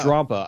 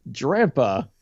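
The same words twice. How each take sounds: First: Drampa with an open 'ah', like 'drahm-pa'; alternative pronunciation. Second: Drampa with a flat 'a' as in cat; first pronunciation try. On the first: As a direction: say Drampa, first syllable rhyming with 'calm'. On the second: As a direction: say Drampa, first syllable rhyming with 'ram'. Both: Shown as a demonstration. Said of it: "I'm not sure".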